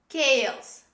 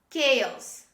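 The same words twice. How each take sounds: Both takes have the same delivery.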